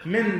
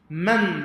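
First: من with a short i after the m; short i vowel in من, "min"; min with kasra. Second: من with a short a after the m; man with fatha. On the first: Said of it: "بكسر الميم". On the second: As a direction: say من as "man", drawn out. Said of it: "بفتح الميم". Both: Shown as a demonstration.

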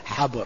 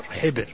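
First: حبر as "habr", with "a" after the h; habr, first vowel "a" in حبر; fatha on ha. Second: حبر as "hibr", with "i" after the h; hibr, first vowel "i" in حبر; kasra on ha. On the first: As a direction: say حبر with an open short "a". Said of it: "بفتح الحاء". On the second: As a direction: say حبر with a short "i". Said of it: "وكسرها". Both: Shown as a demonstration.

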